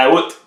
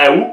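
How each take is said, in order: First: "août" said "oute", T sounded; "août" with the final T pronounced; "août" ending on a clear T. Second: "août" said "ou", no T; "août" as a single "ou" sound; "août" said "ou" with the T silent. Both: Shown as a demonstration. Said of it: "il y en a qui disaient".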